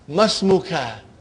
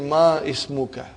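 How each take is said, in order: First: The words run together, dropping the 'i'. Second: The 'i' of ismuka is pronounced separately. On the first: The speaker calls it right. "You should say masmuka" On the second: The speaker calls it wrong. "It will be incorrect to say ma ismuka"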